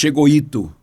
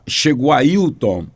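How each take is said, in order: First: The name is clipped to a short slurred form. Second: The name is said in full, all sounds clear. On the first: This is how a childhood speech difficulty made it come out. The speaker calls it wrong. "Eu disse chegou Ito" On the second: This is what the speaker meant to say. The speaker calls it right. "eu fui falar"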